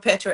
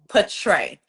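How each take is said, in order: First: The name is said as Petra. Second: The name is said as Patray. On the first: The speaker calls it wrong. "people would say Petra Petra, and it bothered me so bad" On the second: The speaker calls it right. "My name is Patray"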